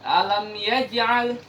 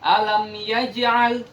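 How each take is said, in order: Both takes have the same delivery.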